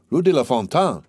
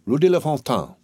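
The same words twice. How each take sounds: First: Startled, agitated echo; agitated exclamation. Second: Said in the usual way. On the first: A narrator's reading. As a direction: blurt it out, shaken. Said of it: "exclaimed Villefort in an agitated tone". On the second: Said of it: "exclaimed Villefort".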